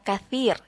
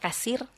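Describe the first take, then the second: First: The middle consonant is a 'th' sound. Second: The middle consonant is an 's' sound. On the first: It means many. The speaker calls it right. "yang harusnya pakai huruf ta" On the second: It means broken. The speaker calls it wrong. "terbaca kasir dengan huruf sin"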